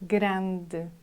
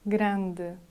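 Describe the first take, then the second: No difference in how they are said.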